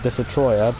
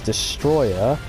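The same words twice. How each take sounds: First: The name is said in a broken-English style. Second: The name is said as standard English 'destroyer'. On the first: This is the preferred version because it sounds better. "people prefer to say it like Destroyer because it just sounds better" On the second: This is the official translation. "the actual American English translation was Destroyer"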